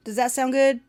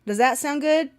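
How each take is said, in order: First: Southern lilt, higher again; a hint of Southern twang; second Southern try. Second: Higher, testing a Southern lilt; half-sure Southern test; trying Southern accent. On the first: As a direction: test the Southern accent once more. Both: Shown as a demonstration.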